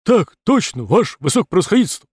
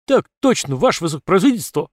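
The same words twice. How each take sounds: First: Loud, fast drill response; soldiers shouting in unison. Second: Loud, fast but bored answer; dull barked reply. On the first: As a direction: snap the answer like recruits. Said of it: "Батальон набрал в грудь воздух и ответил". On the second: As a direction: bark it back half-heartedly. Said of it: "рявкнул поскучневший строй". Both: Acted.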